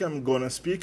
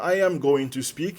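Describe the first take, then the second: First: The phrase is squeezed into a short 'I'mma' form. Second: Every word is said separately and in full. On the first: "o going to acaba virando gonna... na primeira pessoa, na verdade ele vira mana"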